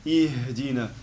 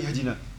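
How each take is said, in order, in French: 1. Le son H soufflé se prolonge plus longtemps. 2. Le son H soufflé est coupé court. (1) "Le H, il faut le prolonger un peu" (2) "On ne dit pas Ihdina"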